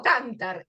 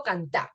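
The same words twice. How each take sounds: First: Cantar said as CANtar, stress on the first syllable; wrong stress on cantar. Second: Cantar said as canTAR, stress on the final syllable; right stress on cantar. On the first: Teacher to students showing the wrong stress, CANtar. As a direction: stress cantar wrongly on CAN, as a counter-example. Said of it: "No digo cantar". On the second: Teacher to students showing the right stress, canTAR. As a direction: land firmly on TAR in cantar. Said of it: "digo cantar". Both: Shown as a demonstration.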